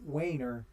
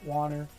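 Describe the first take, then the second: First: The name is said with an 'ay' sound. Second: The name is said with an 'ar' sound. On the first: This is the name as the family used it. "I had the name Wainer drilled into my skull" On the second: This is how some other people say it. "I know some people pronounce it Warner"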